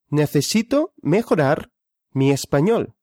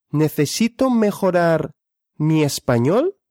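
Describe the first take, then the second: No difference in how they are said.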